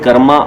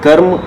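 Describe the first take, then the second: First: The word ends with an extra 'a' vowel. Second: The word ends on the consonant 'm'. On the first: This is how it is said on the internet. The speaker calls it wrong. "इनको बोलते हैं कर्मा" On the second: This is the original form of the word. The speaker calls it right. "जबकि शब्द है कर्म"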